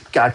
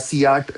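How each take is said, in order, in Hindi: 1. शब्द की शुरुआत k की आवाज़ से होती है। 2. शब्द की शुरुआत अक्षर का नाम 'see' से होती है। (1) "क की साउंड से आएगा" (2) "नहीं बोलूंगा"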